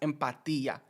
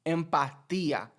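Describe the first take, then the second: First: The final S sound is dropped. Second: The same.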